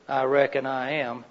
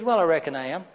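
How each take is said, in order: First: "I reckon I am" softer with a falling "reckon"; unsure reckon. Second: "Well, I reckon I am" with a rising questioning well; tentative reckon. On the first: Husband unsure he'll make supper, lightly hesitant. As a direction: let "reckon" drop with doubt. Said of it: "you might not all be sure". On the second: Husband answering wife about supper, a mild maybe. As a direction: lightly lift "Well" and leave it hanging. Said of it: "That means that it's likely". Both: Shown as a demonstration.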